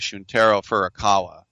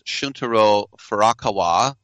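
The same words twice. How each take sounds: First: The name is said with English pronunciation. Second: The name is said with Japanese pronunciation. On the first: "we would say" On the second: "trying to say it the Japanese way"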